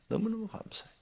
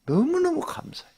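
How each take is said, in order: First: 너무너무 said again much softer, still lifted; softer repeat. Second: 너무너무 thrown up much higher in an excited burst; joyful thanks. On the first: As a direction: echo the thanks quietly to yourself. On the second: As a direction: sing out 너무너무 with delight. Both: Real, not acted. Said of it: "진짜 화가 안 나".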